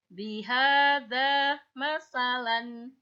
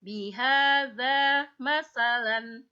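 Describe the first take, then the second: First: "masalan" with the short final "lan", slow; "masalan" sounded out slowly with a short final "lan"; short ending. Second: "masalan" read slowly and loudly as it turns before a stop; slow demonstration of "Bihadza masalan" before the pause mark; "masalan" spoken slowly, loud, as a teaching demonstration. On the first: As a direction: read "Bihadza masalan" slowly and clearly with the short nunation. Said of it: "Pendek kan?". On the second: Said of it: "Tapi kalau ... bertemu tanda wakof". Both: Shown as a demonstration.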